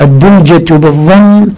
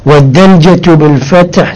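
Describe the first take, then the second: First: الدلجة with a short u after the d; U vowel in الدلجة. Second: والدلجة with a short a after the d; A vowel in والدلجة. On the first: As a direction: say الدلجة as "ad-dulja". (الدلجة بضم الدال) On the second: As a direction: say والدلجة as "wad-dalja". (والدلجة بفتح الدال) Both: Shown as a demonstration.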